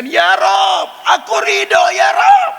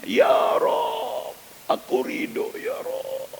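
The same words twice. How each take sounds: First: Very high, loud cry to God; a mother's desperate shout, climbing ever higher; shouted prayer. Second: Breathless, tearful whispered prayer; a mother fallen to the floor, whisper-crying her thanks; weeping whisper. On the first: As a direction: throw it upward with all her strength. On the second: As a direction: sob it out almost without voice. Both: Acted.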